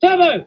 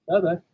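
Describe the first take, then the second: First: High, loud shout of the name; shout to wake. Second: Said in the usual way. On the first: Acted. Driver rouses the sleeping engine, shouting.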